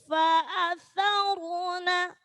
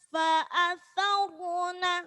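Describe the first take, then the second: Both takes have the same delivery.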